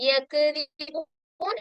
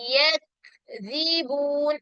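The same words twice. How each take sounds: First: A vowel sound follows the k. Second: The k is held with no vowel. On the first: The speaker calls it wrong. "യക്ദിബൂൻ എന്ന് പറയാൻ പാടില്ല" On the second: The speaker calls it right. "ഈ രൂപത്തിലേക്ക് പാരായണം ചെയ്യാം"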